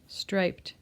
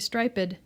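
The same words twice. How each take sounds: First: The word is said with one syllable. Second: The word is said with two syllables. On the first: The speaker calls it right. "so it's one vowel sound, one syllable" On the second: The speaker calls it wrong. "we don't say striped"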